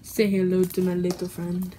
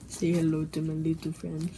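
First: It is said louder. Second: It is said at normal, quieter volume.

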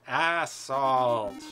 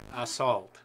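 First: The word is said slowly. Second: The word is said quickly.

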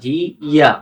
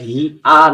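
First: A y-glide links the two syllables. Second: A glottal stop separates the two syllables. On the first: The speaker calls it right. "হি ইয়া এমন উচ্চারণ হবে" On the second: The speaker calls it wrong. "এই শব্দটা হি আ না"

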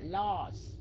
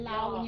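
First: The word ends with a final z sound. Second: The word ends without a final s sound. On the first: The speaker calls it right. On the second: The speaker calls it wrong.

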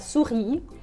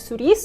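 First: The word ends on the vowel, s silent. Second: The final s is pronounced at the end. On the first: The speaker calls it right. "а «сюрі»" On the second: The speaker calls it wrong. "Тут літеру «с» на кінці ми не читаємо. Не «сюріс»"

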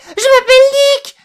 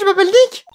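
First: It is said much louder. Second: It is said fairly softly.

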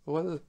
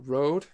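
First: The name is said with a Danish pronunciation. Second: The name is said with an English pronunciation. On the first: "I'm from Denmark. We pronounce it as Rød" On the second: "Sounds like a Rød or Rode, wherever you're from"

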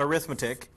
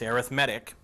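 First: The stress is on the second syllable. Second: The stress is on the third syllable. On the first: The speaker calls it wrong. "It's not arithmetic" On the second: The speaker calls it right. "It's arithmetic"

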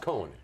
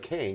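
First: The name is two syllables, like 'Cohen'. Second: The name is one syllable, rhyming with 'rain'. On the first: This is how most people say it. The speaker calls it wrong. "Which is Cohen, everywhere" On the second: This is the name's actual pronunciation. The speaker calls it right. "You're talking to a Kane"

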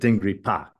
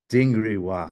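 First: The last syllable starts with a p sound. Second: The last syllable starts with a w sound. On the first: This is the ancient pronunciation. "instead of Dingri Pa" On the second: This is the modern pronunciation. "modern Tibetans for Dingri people would say Dingri Wa"

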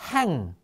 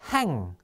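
The two takes are said the same way.

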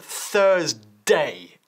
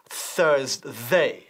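First: The 'd' in the last syllable is strong, almost 't'. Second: The 'd' in the last syllable is soft. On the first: The speaker calls it right. "la D de day es muy fuerte. Casi suena como un T" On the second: The speaker calls it wrong. "No decimos Thursday"

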